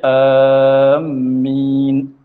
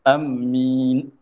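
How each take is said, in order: First: Long first vowel and a doubled m. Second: Short first vowel and a doubled m. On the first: "panjangkan hamzah serta tasydid akan mim" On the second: "boleh kita tasydid akan mim"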